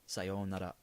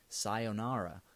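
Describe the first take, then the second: First: It is said with a native Japanese pronunciation. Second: It is said with an American English pronunciation. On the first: "the Japanese pronounce it more like sayonara" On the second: "most people in you know in the States, you know, they're going to say sayonara"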